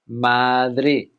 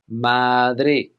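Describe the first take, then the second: No difference in how they are said.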